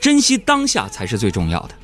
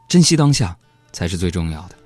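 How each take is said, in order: First: It is said in a plain, ordinary way. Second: It is said in a sentimental, inspirational way.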